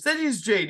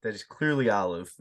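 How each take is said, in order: First: High, pushy insisting voice; mock insistent character. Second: Lightly voiced, lower stubborn answer; mock stubborn reply. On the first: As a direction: insist it's Jade in a raised voice. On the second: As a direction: drop lower and stubbornly correct. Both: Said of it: "He goes".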